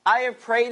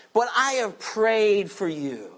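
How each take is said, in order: First: Emphatic "I" in "I have prayed"; stress on I. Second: Said in the usual way. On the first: Shown as a demonstration. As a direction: lean hard on I, Jesus himself. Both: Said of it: "is emphatic".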